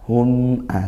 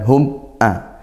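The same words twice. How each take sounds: First: The m flows evenly at medium strength. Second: The m is not given a medium flow. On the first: The speaker calls it right. "seperti itu" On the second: The speaker calls it wrong. "bukan hum a"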